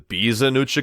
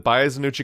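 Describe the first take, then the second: First: The first syllable sounds like 'bee'. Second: The first syllable sounds like 'bye'. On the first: The speaker calls it right. "is actually the Bizanuchi katana" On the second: The speaker calls it wrong. "apparently the Baizanuchi katana"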